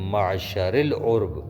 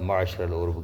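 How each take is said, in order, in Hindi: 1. पहले शब्द का अंत 'i' स्वर से होता है। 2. पहले शब्द का अंत 'a' स्वर से होता है। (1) "माशरिल उर्ब पढ़ सकते हैं" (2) "गलत है कहना"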